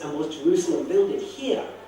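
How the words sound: The stress falls on the word builded.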